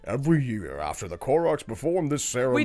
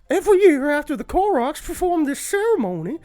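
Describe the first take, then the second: First: It is read in the speaker's normal voice. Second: It is read in a put-on character voice. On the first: The speaker calls it wrong. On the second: The speaker calls it right.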